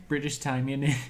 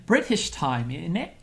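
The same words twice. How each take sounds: First: A clumsy mock British accent on "British time, in it"; mock British, lightly done; bad British accent. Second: Put-on a second clumsy British accent take on "British time, in it"; hammed-up fake British; bad British accent. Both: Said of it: "that was a terrible British accent".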